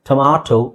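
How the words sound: The middle vowel is an open 'ah'. "British ಇಂಗ್ಲಿಷಲ್ಲಿ"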